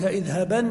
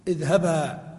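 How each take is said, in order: First: The word ends with an n sound. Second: The word ends with a long a sound. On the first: The reading continues without a pause. "أكدت بالنون الخفيفة" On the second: The reader stops on this word. "تقول"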